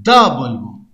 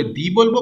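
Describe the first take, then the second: First: The said "da", dropping low; low-pitched "da" for the. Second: দি said "dee". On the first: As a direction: say the as an open "da". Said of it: "consonant sound করলে". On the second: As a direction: say দি with an ee vowel. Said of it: "vowel sound করলে দি বলবো". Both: Shown as a demonstration.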